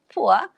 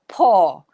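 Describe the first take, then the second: First: The vowel glides like 'ua'. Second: The vowel is a long 'or'. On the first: This is the dictionary pronunciation. "in the Oxford Dictionary, it says it's poor" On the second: This is the current London pronunciation. "the young people in London is saying it as poor"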